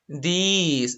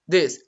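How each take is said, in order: First: The vowel is drawn out long. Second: The vowel is quick and short. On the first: The speaker calls it wrong. "You don't say this" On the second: The speaker calls it right. "It's fast. It's short"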